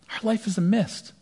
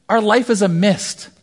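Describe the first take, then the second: First: Repeated much softer, almost breathed; soft echo. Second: Slow, weighty delivery of "life"; emphatic preaching. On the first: Preacher repeating his point to the congregation, hushed. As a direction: let it drift away like mist. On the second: Preacher to the congregation, slow and emphatic. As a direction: lean on it slowly, like a sermon point. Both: Acted.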